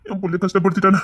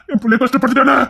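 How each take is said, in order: First: Said in the usual way. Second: கஷ்டப்படுத்திட்டானே higher with a rising wail; hammed-up grieving father; mock wail. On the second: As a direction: lament it theatrically. Lament repeated higher.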